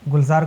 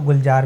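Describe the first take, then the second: First: The middle consonant is a 'z' sound. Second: The middle consonant is a 'j' sound.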